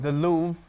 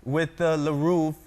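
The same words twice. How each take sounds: First: "Louvre" as one syllable, LOOV; corrected Louvre. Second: "Louvre" drawn out slowly as luh-ROOV; wrong extra syllable. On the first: Repeats the coach's correction. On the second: Coach corrects the word. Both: Shown as a demonstration.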